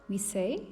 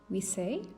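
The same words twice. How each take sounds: The two takes are said the same way.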